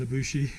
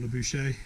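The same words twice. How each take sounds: First: "Labushi" ending in an ee sound; first pronunciation. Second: "Labuche" ending in an ay sound; alternative pronunciation. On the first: Unsure traveller tries a village name, "Labushi" ending in "shee". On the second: Unsure traveller offers another try, "Labuche" ending in "shay". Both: Shown as a demonstration. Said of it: "however you say it".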